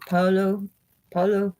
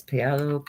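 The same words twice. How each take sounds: First: Paolo said with a higher, rolled Italian lilt; mock Italian Paolo with a flourish; playful Italian-accented Paolo. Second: Said in the usual way. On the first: Shown as a demonstration. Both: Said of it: "like my, my Italian accent".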